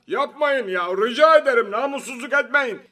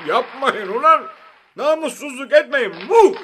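First: High-pitched, strained pleading outburst; exasperated anger. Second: High, loud protest opened by a laugh; helpless angry laughing. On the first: Prime minister protests against the applause, exasperated. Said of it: "bu alkışlara kızan". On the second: Prime minister at wits' end with applauders, laughing helplessly. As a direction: laugh in despair as you beg them to stop. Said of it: "ne yapacağını şaşırıp gülerek". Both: A narrator's reading.

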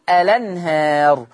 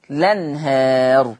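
First: الأنهار begun on a clear glottal stop, "al-anhar"; with hamzat wasl. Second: لنهار begun straight on the lam with no hamza, drawn out very slowly and low; slow low demo of لنهار without the hamza; starting on the lam. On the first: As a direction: start الأنهار with the hamza sounded. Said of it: "لو أنا حطيت همزة الوصل هقول الأنهار". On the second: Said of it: "شلت همزة الوصل هبتدي باللام فتصير". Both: Shown as a demonstration.

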